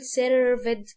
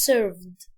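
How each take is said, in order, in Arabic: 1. الكلمة فيها ستريس في أكتر من مكان. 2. الكلمة فيها ستريس في مكان واحد.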